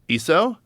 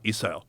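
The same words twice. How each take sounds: First: The pitch rises at the end. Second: The pitch falls at the end. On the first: It asks whether the listener has it. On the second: It states that the speaker has it.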